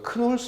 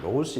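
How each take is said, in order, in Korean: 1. 이 이름은 K 소리로 시작해요. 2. 이 이름은 N 소리로 시작해요. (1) "크놀스 이렇게 발음해도 되고요" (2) "그냥 노울스 이렇게 말합시다"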